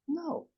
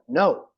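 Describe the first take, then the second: First: It is said quietly and thoughtfully. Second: It is said loudly and aggressively.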